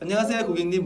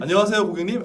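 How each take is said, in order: First: It is said on a high, bright pitch. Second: It is said loudly, not raised in pitch. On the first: "제일 잘 들리는 거 솔이잖아" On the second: "큰 음은"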